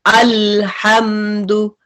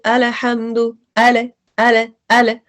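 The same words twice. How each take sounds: First: अल्हम्दु with the ल stopped hard and abrupt; अल्हम्दु said hard, the ल fully closed; strong hard lam. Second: अल्हम्दु with the ल drawn out softly and continued; अल held smooth and long on the ल; soft lam. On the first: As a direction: cut the sound of ल off sharply in अल्हम्दु. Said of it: "अगर हम इसको strong पढ़े". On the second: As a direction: let the ल in अल flow on without stopping. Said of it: "अब softness क्या है". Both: Shown as a demonstration.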